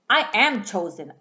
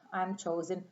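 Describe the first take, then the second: First: It is said firmly, with conviction. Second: It is said weakly, without conviction. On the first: The speaker firmly claims it as true. The speaker calls it right. "I'm going to say with conviction" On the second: The speaker does not fully believe it. The speaker calls it wrong. "I'm not going to say"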